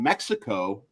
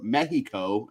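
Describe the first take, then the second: First: It is said with an English pronunciation. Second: It is said with a Spanish pronunciation.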